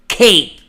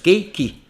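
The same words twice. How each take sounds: First: The word is said with one syllable. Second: The word is said with two syllables. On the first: The speaker calls it right. "Sabe qual é o som disso em inglês? ... O K tá parado lá" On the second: The speaker calls it wrong. "Muitos brasileiros vão falar cake. Tem duas sílabas"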